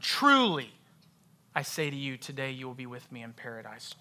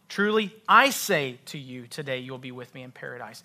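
First: The word truly carries the strongest stress. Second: The words I say carry the strongest stress. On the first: It's a guarantee, a promise. "Truly. It's a guarantee. It's a promise" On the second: The one speaking has the authority to promise it. "I say, Jesus says"

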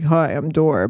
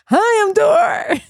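First: It is said in a deep dude voice. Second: It is said in a higher voice.

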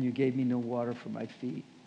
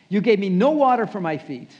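First: It is said in a gentle, calm tone. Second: It is said in a harsh, accusing tone. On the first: The speaker calls it right. "He said it probably more like this" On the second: The speaker calls it wrong. "Jesus didn't say it like that"

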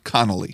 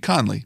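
First: The name is said with three syllables. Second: The name is said with two syllables. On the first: The speaker calls it wrong. "not Connolly" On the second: The speaker calls it right. "It should be Conley"

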